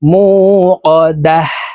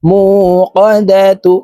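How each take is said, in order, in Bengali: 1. শব্দটি স্বরচিহ্নহীন 'h' ধ্বনিতে শেষ হয়। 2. শব্দটি স্বরচিহ্নযুক্ত 'tu' ধ্বনিতে শেষ হয়।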